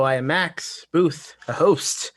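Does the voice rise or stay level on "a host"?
level. The voice stays level on "a host".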